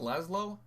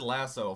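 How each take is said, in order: First: The name does not sound like 'lasso'. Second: The name sounds like the word 'lasso'. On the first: The speaker calls it right. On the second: The speaker calls it wrong.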